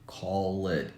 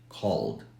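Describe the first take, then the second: First: The ending is said as an extra syllable. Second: The ending is a plain d sound. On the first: The speaker calls it wrong. "we don't pronounce like" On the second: The speaker calls it right.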